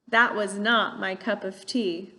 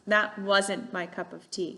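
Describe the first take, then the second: First: The word not is said in full. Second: The word not is contracted onto was. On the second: "these contractions"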